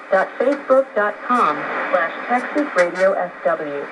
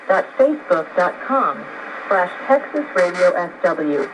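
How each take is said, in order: Both takes have the same delivery.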